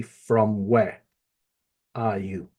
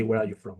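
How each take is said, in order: First: From where are you? said slowly, word by word; quoting From where are you? as the Spanish order; right word order. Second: Where are you from? said as the English order to avoid; quoting Where are you from? as the order not used; wrong word order. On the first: Teacher to pupil, showing the right order. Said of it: "We would say". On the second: Teacher to pupil, showing the wrong order. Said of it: "we wouldn't say". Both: Shown as a demonstration.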